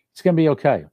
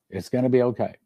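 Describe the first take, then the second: First: Emphatic reassurance. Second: Gentle reassurance. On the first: Preacher to brothers and sisters, loud emphatic promise. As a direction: lift it high and strong, full conviction. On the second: Preacher repeats the reassurance softly. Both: Real, not acted.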